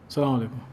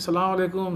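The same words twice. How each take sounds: First: The greeting sounds curt and indifferent. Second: The greeting sounds warm and enthusiastic.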